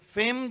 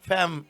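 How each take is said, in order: First: The vowel sounds like the 'ay' in day. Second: The vowel sounds like the 'a' in cat. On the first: The speaker calls it right. "शोहरत को कहते हैं F E M" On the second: The speaker calls it wrong. "कई लोग उसके pronounce को कुछ अलग अलग ही कहते हैं"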